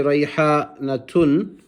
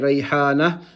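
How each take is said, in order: First: The word ends with a full 'tun' syllable. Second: The word ends with a soft 'h' sound. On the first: The speaker calls it wrong. "we won't say Rayhanatun with the two pesh on top of the ta" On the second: The speaker calls it right. "pausing on the ta, which then turns into a ha"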